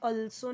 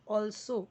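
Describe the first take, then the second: First: It starts with a short uh vowel. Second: It starts with a rounded aw vowel. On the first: The speaker calls it wrong. "आल्सो या अल्सो नहीं" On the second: The speaker calls it right.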